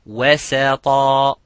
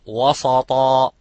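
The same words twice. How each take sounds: First: The s sound is light and thin. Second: The s sound is heavy and thick. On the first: The speaker calls it right. "making ترقيق and making استفال of the sin" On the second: The speaker calls it wrong.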